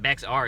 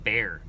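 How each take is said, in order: First: The name is not said like 'bear'. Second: The name is said exactly like 'bear'. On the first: The speaker calls it wrong. "So it's not Bexar" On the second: The speaker calls it right. "It's just bear"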